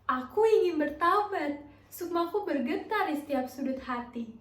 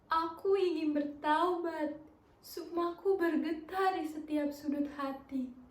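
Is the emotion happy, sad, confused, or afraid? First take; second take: happy; sad. First: It is said with a happy expression. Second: It is said with a sad expression.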